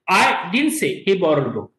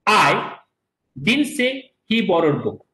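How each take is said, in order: First: Said in the usual way. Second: I set apart by a pause, then the rest slowly; stress on I. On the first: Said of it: "The meaning of this sentence is". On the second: Shown as a demonstration. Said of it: "In the first sentence, I said".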